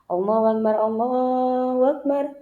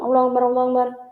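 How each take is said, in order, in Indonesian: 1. Diucapkan lambat, dengan jeda setelahnya. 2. Diucapkan cepat, langsung bersambung. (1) "Berhenti sebentar" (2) "Jangan langsung"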